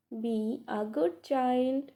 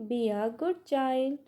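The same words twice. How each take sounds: First: Put-on "Be" alone, then "a good child"; pause after BE. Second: Said in the usual way. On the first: Shown as a demonstration. Teacher repeating for learners, pausing after "Be". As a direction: hold off briefly after "Be".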